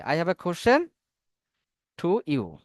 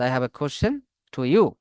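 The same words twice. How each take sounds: First: Said in the usual way. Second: Each word drawn out slowly for the class; slow dictation. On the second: Shown as a demonstration. Teacher spelling a sentence out for online students, slowly.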